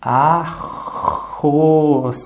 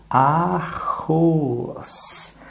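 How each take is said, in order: First: "arroz" stretched as a-rroz; drawn out by syllables. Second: Said in the usual way. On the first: Shown as a demonstration. Teacher stretches the word for a child. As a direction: sound out "arroz" slowly for the child. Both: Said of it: "a, o, a, o".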